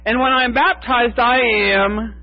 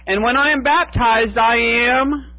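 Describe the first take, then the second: First: High voice with baptized stressed, falling firmly on the last I am; lightly voiced woman stating it with certainty; a hint of a woman proudly declaring it; Fayette answering herself. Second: High, eager questioning voice with the pitch lifting at the end; lightly voiced hopeful woman asking to be named; a hint of a woman eagerly asking who she is; Fayette asking eagerly. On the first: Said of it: "Fayette says". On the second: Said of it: "would ask over and over".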